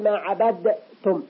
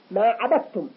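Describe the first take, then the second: First: "عبدتم" broken after a clearly bounced d, then tum; wrong unmerged dal. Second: "عبدتم" as abattum, d swallowed into t; assimilated dal. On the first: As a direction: separate the d from the t in "عبدتم". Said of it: "ولا نقول". (إظهار دال "عبدتم" منفصلة عن التاء) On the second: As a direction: run d straight into a doubled t in "عبدتم". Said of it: "كأن الدال تحولت إلى تاء". (إدغام دال "عبدتم" في التاء) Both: Shown as a demonstration.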